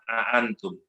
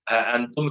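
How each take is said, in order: First: The phrase begins with a glottal stop. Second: The phrase begins with an h sound. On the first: The speaker calls it wrong. "a itu lebih susah" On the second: The speaker calls it right. "untuk memudahkan ha antum"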